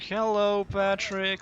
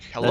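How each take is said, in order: First: It is said slowly, imitating Eraser. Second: It is said at a normal speed.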